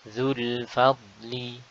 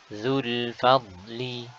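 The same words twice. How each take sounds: The two takes are said the same way.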